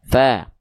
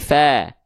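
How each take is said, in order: First: The vowel is thin, sounding like clear A. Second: The vowel is thin, sounding like clear A.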